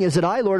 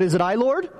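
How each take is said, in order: First: "Is it I, Lord?" falling at the end, weight on "I", expecting a no; self-excusing question. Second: "Is it I, Lord?" with a rising tune on "Lord", a real plea; sincere worried question. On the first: Disciple clearing his name in front of the others, falling tone. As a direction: say it like you already know it's not you. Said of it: "Gee, it's not me". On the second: Disciple anxiously asking Jesus at the table, rising plea. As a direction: ask it earnestly, lifting at the end on "Lord". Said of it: "Lord, please tell me, am I the one". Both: Retold or imitated.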